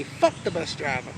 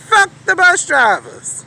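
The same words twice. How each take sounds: First: Low, muttered "Fuck the bus driver."; muttered curse. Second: High, loud, slow "Fuck the bus drivers."; shouted repeat. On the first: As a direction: say "Fuck the bus driver." under your breath, almost to yourself. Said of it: "I say". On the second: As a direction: belt out "Fuck the bus drivers." slowly, every word hit. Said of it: "and I did just like that". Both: Retold or imitated.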